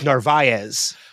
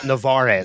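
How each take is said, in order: First: The r sound comes before the v sound. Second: The r sound comes after the v sound. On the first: The speaker calls it right. "it's Narvaez" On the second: The speaker calls it wrong. "not Navarez"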